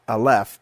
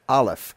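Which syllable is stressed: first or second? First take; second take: second; first. First: The stress is on the second syllable. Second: The stress is on the first syllable. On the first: The speaker calls it wrong. "not aleph" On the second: The speaker calls it right. "the accent's going to fall on the first syllable"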